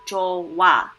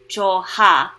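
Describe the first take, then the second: First: No H sound is heard in the middle. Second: An H sound is heard in the middle. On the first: The speaker calls it right. "It sounds more like 좋아" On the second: The speaker calls it wrong. "doesn't really jo- sound like 좋아"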